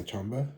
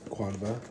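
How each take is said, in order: First: The name begins with a 'ch' sound. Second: The name begins with a 'kw' sound. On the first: "some people say Chamba, and that's probably correct since you know Q is often used for like Chi" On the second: "I'll pronounce them as Quanva"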